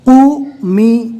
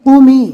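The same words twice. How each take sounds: First: قومی very slow, lips rounded on قو, the zer on می pressed; demo pronunciation. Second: قومی said quick and louder, higher; crisp full word. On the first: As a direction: stretch قومی slowly with a rounded قو. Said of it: "قوف کو پور پڑھنا ہے". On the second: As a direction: snap قومی out in one clean go. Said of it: "آواز کو تھوڑا دبا کر زیر پڑھنا ہے". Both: Shown as a demonstration.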